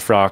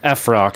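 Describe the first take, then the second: First: It is blended into a single word, frock. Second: The letter F is said separately before rock. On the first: The speaker calls it wrong. "not Frock" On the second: The speaker calls it right. "It's a F Rock"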